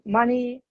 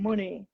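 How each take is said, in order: First: Said in the usual way. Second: "money" said as "moony", short oo; "money" with the vowel of "put"; Yorkshire vowel. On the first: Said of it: "money would become money". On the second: Shown as a demonstration. Teacher shows Yorkshire change, "money" with short oo. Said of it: "A would get changed to O".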